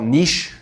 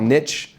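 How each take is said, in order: First: Canadian way: "niche" as neesh. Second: "niche" said as NITCH, short i, tch ending; American way: "niche" as nitch. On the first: Teaching the Canadian way, "niche" said neesh. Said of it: "if you're from Canada". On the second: Contrasting American pronunciation, "niche" said nitch. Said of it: "If you're from America". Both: Shown as a demonstration.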